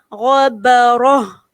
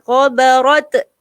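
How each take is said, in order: First: The word ends with an h sound. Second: The word ends with a t sound. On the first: The speaker calls it right. "Tukarkan dia menjadi huruf ha" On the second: The speaker calls it wrong.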